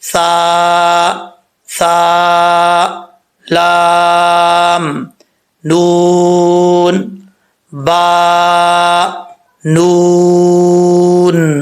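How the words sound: Each letter name is separated by a pause. The speaker calls it right. "ऐसे करवाएं"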